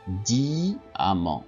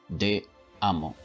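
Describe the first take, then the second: First: The word is said smoothly without a break. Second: The word is split with a break inside. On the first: The speaker calls it right. "Non. Diamant" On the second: The speaker calls it wrong. "On ne dit pas"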